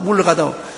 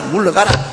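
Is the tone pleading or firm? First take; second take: pleading; firm. First: It is said in a pleading, begging tone. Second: It is said in a firm, commanding tone.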